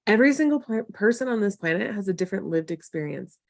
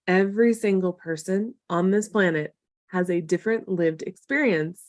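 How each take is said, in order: First: Said in the usual way. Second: Emphatic repeat. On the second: Real, not acted. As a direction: let each phrase land separately.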